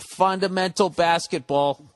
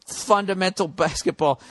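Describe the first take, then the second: First: Slow, each word stressed: "Fundamental basketball"; emphatic phrase. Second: "Fundamental" then a laugh before "basketball"; laughing repeat. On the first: Rooting for the Spurs, slow stressed "Fundamental basketball". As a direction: lean on "Fundamental" slowly. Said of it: "praising Spurs' style". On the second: Repeating the Spurs praise, laughing through it. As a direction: break into a laugh mid-phrase. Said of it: "repeats with a laugh". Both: Real, not acted.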